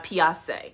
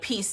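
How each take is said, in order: First: The vowel is stretched into a fancy, affected sound. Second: The word is said with a plain vowel. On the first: "they're making it like really bougie" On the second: "instead of peace"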